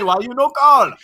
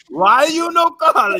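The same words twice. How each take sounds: First: High and loud, stress on call; Mama George impression. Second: Much higher, slow shout, stress on no; Mama George shouting. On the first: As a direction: scold him for not calling. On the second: Retold or imitated. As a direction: drag it out in an outraged yell. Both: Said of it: "That entire impersonation".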